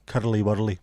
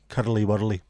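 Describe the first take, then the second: First: It is said in a Glasgow Scottish accent. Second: The same.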